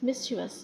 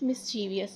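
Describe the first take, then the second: First: The word has three syllables, with no extra vowel. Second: The word has four syllables, with an extra 'ee' sound. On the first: The speaker calls it right. "It's right pronunciation is मिस्चीवस" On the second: The speaker calls it wrong. "Mostly people pronounce it मिस्चीवियस, जो कि गलत है"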